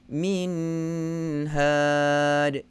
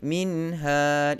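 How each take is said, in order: First: The nasal hum on the n is drawn out. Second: The nasal hum on the n is brief. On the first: The speaker calls it wrong. "itu dah salah" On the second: The speaker calls it right. "min had setakat itu saja"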